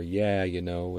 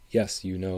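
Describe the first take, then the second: First: Upper Midwest "Yeah, you know" with flat "yah"; Upper Midwest accent. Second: Said in the usual way. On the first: Shown as a demonstration. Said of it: "it's "Yeah". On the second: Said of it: "it's not".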